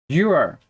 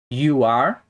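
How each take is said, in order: First: "you're" as one falling syllable; contracted form. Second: "You are" as two words, rising at the end; full form. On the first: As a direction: squeeze it together into "you're". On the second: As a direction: keep "You are" uncontracted. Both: Shown as a demonstration. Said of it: "podemos falar também é sobre as contrações".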